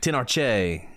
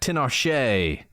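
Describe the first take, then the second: First: The last syllable starts with a 'ch' sound. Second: The last syllable starts with a 'sh' sound. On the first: The speaker calls it right. "Probably a cha" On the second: The speaker calls it wrong. "not a sha"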